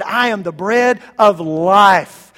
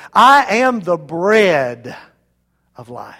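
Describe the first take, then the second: First: Slow, weighty landing on "life"; "life" drawn out and punched at the end; stress on LIFE. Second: "bread" loud and stretched, then a pause; slow build to a heavy "bread", hushed tail; stress on BREAD. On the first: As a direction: build through the phrase to a strong "life". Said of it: "he could have emphasized the last word". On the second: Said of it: "he could have emphasized the middle word". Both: Shown as a demonstration.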